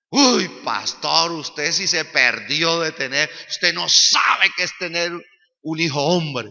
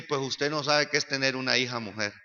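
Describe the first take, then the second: First: Loud, drawn-out teasing brag; mock boasting. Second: Understated retort. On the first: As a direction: lean heavily on "sabe", showing off. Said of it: "me chicaneaba a mí". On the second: Retold or imitated. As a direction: answer back calmly in a lowered voice. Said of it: "Yo le dije".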